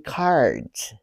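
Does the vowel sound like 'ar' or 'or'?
ar. The vowel is an open 'ar' sound. "they say cards"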